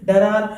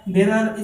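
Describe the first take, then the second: First: "डरार" with a short da and a long ra at the end; wrong pronunciation. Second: "डेरर" with an open de and two short, even syllables; correct pronunciation. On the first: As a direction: say the wrong "डरार", dragging the second syllable. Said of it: "इसको आप लोग इस तरह pronounce ना करें". (गलत उच्चारण: "डरार", दूसरे अक्षर को लंबा खींचकर) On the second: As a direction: say "डेरर" crisply, stress on the first syllable. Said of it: "ये है डेरर". (सही उच्चारण: "डेरर", पहले अक्षर पर ज़ोर) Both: Shown as a demonstration.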